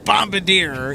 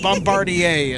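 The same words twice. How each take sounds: First: The word is said with an English spelling-based pronunciation. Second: The word is said with a French pronunciation. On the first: The speaker calls it wrong. "it's not Bombardier" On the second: The speaker calls it right. "It is Bombardier. It's French"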